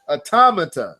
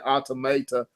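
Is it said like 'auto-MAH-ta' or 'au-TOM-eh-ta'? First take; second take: au-TOM-eh-ta; auto-MAH-ta. First: It is said like 'au-tom-eh-ta'. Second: It is said like 'auto-mah-ta'. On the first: The speaker calls it right. "but it's automata. So uh, the M A is actually an M E, and the auto is actually uh Tom" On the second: The speaker calls it wrong. "I was saying automata. That's how I was saying it"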